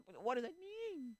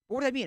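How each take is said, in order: First: High, slow, drawn-out plea; exasperated whine. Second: High, loud burst; exasperated demand. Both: Acted. Exasperated at fence-sitters.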